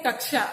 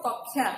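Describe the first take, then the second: First: कक्षा with a 'ksh' cluster, 'kak-shaa'; Hindi pronunciation. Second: कक्षा as 'kok-khyaa', no 'sh'; Odia pronunciation. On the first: Teacher saying how we say it in Hindi, Hindi pronunciation. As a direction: sound the 'sh' in कक्षा. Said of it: "हम हिंदी में कहते हैं". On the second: Teacher saying how students say it in Odia, Odia pronunciation. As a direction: turn the क्ष of कक्षा into 'khy'. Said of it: "Odia में उसको क्या कहते हो". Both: Shown as a demonstration.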